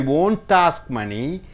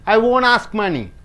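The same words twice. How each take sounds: First: The T in won't is clearly pronounced. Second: The T in won't is silent. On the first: The speaker calls it wrong. "You don't say" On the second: The speaker calls it right. "T is not pronounced if after T vowel comes"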